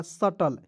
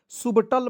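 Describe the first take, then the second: First: सटल with no b before the t; silent B. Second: सुबटल with the b sounded; common mispronunciation. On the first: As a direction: say सटल as sa-tal. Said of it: "पी को silent कर लेना है". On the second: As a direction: say सुबटल as sub-tal, oo vowel first. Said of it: "बहुत लोग पढ़ लेता है". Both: Shown as a demonstration.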